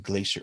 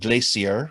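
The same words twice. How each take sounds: First: It is said in an American accent. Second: It is said in a British accent.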